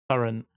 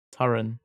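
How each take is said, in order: First: "Torrent" closed on a light T; final T sounded. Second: "Torrent" ending on the N, like Torin; no final T. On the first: Saying the two words for a friend, final T sounded. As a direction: finish "Torrent" with a soft T after the N. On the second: Saying the two words for a friend, no final T. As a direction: leave the T off the end of "Torrent". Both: Shown as a demonstration. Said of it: "the end of torrent with a T".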